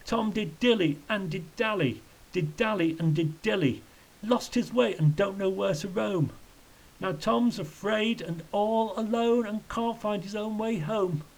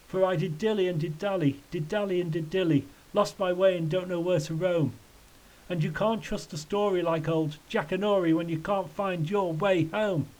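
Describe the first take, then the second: First: High, mournful singsong; acted misery in rhyming verse; wretched lament. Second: Higher, mildly plaintive singsong; lightly acted lament in a raised pitch; tearful tramp rhyme. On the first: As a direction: wail the rhyme in a raised pitch. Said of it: "shaking his head wretchedly". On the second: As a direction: recite it as a mildly sorry rhyme. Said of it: "the tramp started crying". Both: A narrator's reading.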